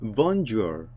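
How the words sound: It is said with an English accent. "영어식 발음은 bonjour 이라고 읽어요"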